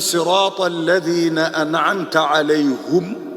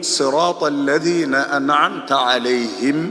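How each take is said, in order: First: The final word ends with a u vowel. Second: The final word ends with an i vowel. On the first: "il dit alayhum" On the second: "il n'est pas dit alayhim"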